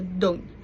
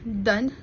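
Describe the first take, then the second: First: The final consonant is clearly pronounced. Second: The final consonant is left off.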